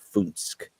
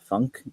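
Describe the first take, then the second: First: It does not sound like English funk. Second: It sounds like the English word funk. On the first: The speaker calls it right. "It's Funsk" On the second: The speaker calls it wrong. "is not the way you say it"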